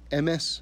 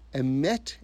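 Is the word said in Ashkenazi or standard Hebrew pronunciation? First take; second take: Ashkenazi; standard Hebrew. First: It is said in Ashkenazi Hebrew pronunciation. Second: It is said in standard Hebrew pronunciation. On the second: "Emet in Hebrew"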